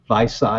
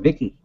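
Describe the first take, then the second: First: The name ends with a soft 'say' sound. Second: The name ends with a hard 'key' sound. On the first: This is how locals say the town's name. The speaker calls it right. "We've got a town named Visay" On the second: This marks the speaker as a newcomer to the area. The speaker calls it wrong. "They call it Vicky"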